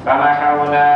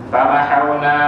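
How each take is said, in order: The two takes are said the same way.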